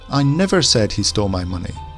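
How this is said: The stress falls on the word never. It denies ever having said it. "Now let's put the emphasis on the never"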